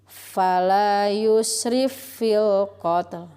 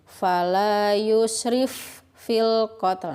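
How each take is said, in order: First: The first f merges into a doubled, pressed f. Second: The two f sounds are said separately. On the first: The speaker calls it right. "fa yang pertama dimasukkan ke fa yang kedua dan ditekan" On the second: The speaker calls it wrong. "Cara pembacaan yang kurang tepat"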